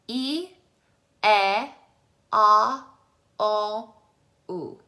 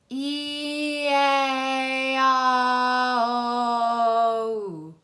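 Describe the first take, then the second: First: There are pauses between the vowels. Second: The vowels run together without pauses.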